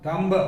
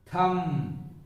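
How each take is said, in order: First: The word ends with a pronounced b sound. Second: The word ends on the m sound, no b. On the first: The speaker calls it wrong. "not thumb" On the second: The speaker calls it right. "B is silent, only M is pronounced"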